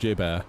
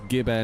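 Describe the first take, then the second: First: The name starts with a J sound. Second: The name starts with a hard G sound. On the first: The speaker calls it wrong. "not Jib Air" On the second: The speaker calls it right. "It's Gib Air"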